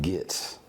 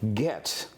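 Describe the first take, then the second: First: The word is pronounced loosely and sloppily. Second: The word is pronounced carefully and precisely. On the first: The speaker calls it wrong. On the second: The speaker calls it right. "to make sure every syllable counts"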